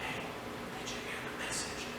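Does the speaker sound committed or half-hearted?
half-hearted. It sounds timid and half-hearted.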